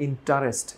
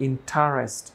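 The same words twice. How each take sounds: The two takes are said the same way.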